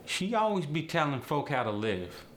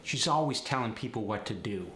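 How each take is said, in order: First: Higher-pitched AAVE delivery; AAVE, lifted and forward. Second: Said in the usual way. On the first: Shown as a demonstration. Teacher showing habitual "be", AAVE. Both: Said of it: "The word be is used".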